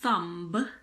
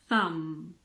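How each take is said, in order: First: A b sound is heard after the m. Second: The word ends on the m sound. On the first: The speaker calls it wrong. "So this is not a thumb" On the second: The speaker calls it right. "Pretend that the B isn't there"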